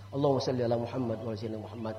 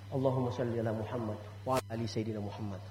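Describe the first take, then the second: First: Fast, low salawat rattled off; quick recitation. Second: Prayer recitation. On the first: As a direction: race through the prayer. Recites salawat prayer again. (salawat dibaca cepat) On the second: (bacaan salawat pelan dan khidmat) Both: Shown as a demonstration.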